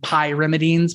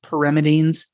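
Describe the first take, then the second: First: The first syllable sounds like the word 'pie'. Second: The first syllable is a short 'pih' sound. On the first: This version supports a memory aid. "I always pronounce them pyrimidines because I think it's easier for students to hear" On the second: This is the standard pronunciation. "I know it's pronounced pyrimidines"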